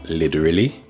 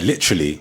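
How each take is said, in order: First: The L sounds are heavy and weighted. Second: The L sounds are light and ordinary.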